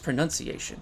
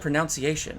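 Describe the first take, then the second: First: The second syllable sounds like 'nun'. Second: The second syllable sounds like 'nounce'. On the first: The speaker calls it right. "It's pronunciation" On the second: The speaker calls it wrong. "I just said pronunciation"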